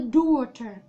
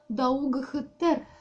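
First: It sounds like daw-ter with silent letters. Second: Every letter is sounded, including g and h. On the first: This is how the word is really read. "а читается «daughter»" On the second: This helps to remember the spelling. "а писали Даугхтер"

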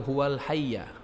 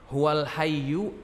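First: The last word ends with an 'a' vowel. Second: The last word ends with an 'u' vowel. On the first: The speaker calls it right. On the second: The speaker calls it wrong.

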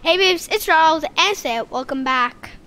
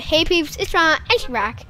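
First: It is said slowly and clearly. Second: It is said fast and slurred.

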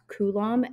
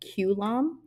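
First: The word is said with its usual pronunciation. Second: The word starts with a sound like the letter Q. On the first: The speaker calls it right. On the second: The speaker calls it wrong.

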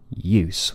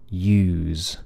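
First: A short vowel cut off by a hissing S. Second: A long vowel followed by a buzzing Z. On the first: "has to suddenly stop when you get to an S, which is unvoiced" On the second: "we lengthen the vowel"

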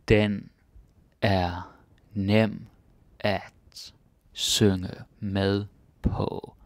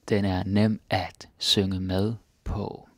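First: It is said more slowly. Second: It is said at normal speed.

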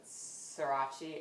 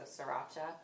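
First: The word ends without a final vowel sound. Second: The word ends with a clear final vowel sound. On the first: The speaker calls it wrong. "I never can pronounce it, sriracha, I pronounce it" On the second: The speaker calls it right. "but there's an A at the end, so sriracha"

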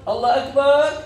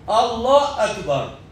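First: It is said so that it sounds questioning. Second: It is said as a plain affirming statement. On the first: It asks whether God is greatest. The speaker calls it wrong. "عم يستفهم" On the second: It affirms that God is greatest. The speaker calls it right. "هي إثبات الله أكبر"

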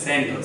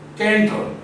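First: The word begins with a soft S sound. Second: The word begins with a hard K sound. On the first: The speaker calls it right. "you always read it as center, Because it is coming before E" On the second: The speaker calls it wrong. "You never read it center"

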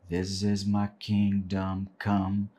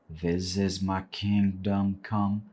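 Both takes have the same delivery.

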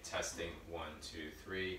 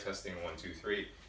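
First: The voice is about six meters away. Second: The voice is about three to four meters away. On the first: "6 meters away" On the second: "I am back at about 3-4 meters away"

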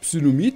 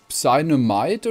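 First: The name is read with German pronunciation. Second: The name is read with English pronunciation. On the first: "Am Anfang habe ich gesagt, ... das stimmt nicht" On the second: "wenn es auf Englisch ausspricht"

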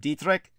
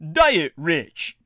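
First: It is not said like 'diet rich'. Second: It is said like the words 'diet rich'. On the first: The speaker calls it right. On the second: The speaker calls it wrong.

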